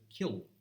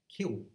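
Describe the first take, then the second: First: The final L is a clear tongue-tip L. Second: The final L becomes a vowel like oo. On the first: This is how the speaker says it. "as opposed to" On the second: This is how some English dialects say it. "that L has become an oo or a wo in some dialects. So like uh"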